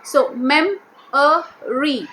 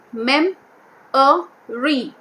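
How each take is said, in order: First: "mem-a-re" said very slowly, one beat per syllable; slow syllable count. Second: "Mem-a-re" split into three beats, falling at the end; spoken in parts for a class; syllable by syllable. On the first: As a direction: stretch "mem-a-re" out. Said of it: "which has three syllables". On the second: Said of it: "So mem-a-re, which has three syllables". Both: Shown as a demonstration.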